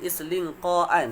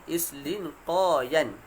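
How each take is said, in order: First: No 'y' sound is heard before the ending. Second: A 'y' sound is heard before the ending. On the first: This is the actual form, with ya changed to hamzah. "Jadi islinqaan tu" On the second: This is the original underlying form with ya. "asalnya ialah islinqayan"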